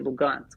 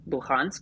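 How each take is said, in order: First: The middle consonant is a G sound. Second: The middle consonant is an H sound. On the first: This is the Russian form of the name. "the Russian pronunciation of Luhansk is actually Lugansk" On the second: This is the English form of the name. "in Russian versus English, um, we'll emphasize an H sound in our words"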